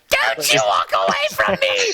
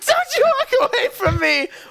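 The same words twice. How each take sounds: First: It is said in a cackling evil-witch voice. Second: It is shouted in a plain angry voice.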